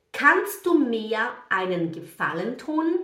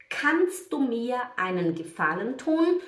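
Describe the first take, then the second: No difference in how they are said.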